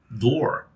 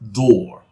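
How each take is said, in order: First: The final R sound is pronounced. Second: The final R sound is dropped. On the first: "in American English, where you would normally say" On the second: "drop it when it is at the end of a word, followed by a pause"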